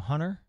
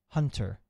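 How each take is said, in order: First: The T sound in the middle is dropped. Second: The T sound in the middle is pronounced. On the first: "without saying the T" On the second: "or would you go Hunter, like Hunter?"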